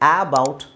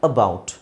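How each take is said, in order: First: The word starts with a long 'aa' vowel. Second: The word starts with a short, weak 'uh'. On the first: The speaker calls it wrong. "ಆ ಬೌಟ್ ಆಗಲ್ಲ" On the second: The speaker calls it right. "ಎ ಅನ್ನೋ ಅಕ್ಷರದ್ದು ಅ sound ಇದೆ"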